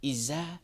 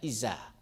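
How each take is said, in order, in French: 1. La consonne du milieu est un son s sifflant. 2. La consonne du milieu est un son s sifflant.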